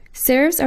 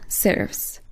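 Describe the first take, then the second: First: Said in the usual way. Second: Breathy whispered heading word. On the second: Shown as a demonstration. Course teacher announcing a font group, whispered. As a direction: whisper serifs as a soft announcement.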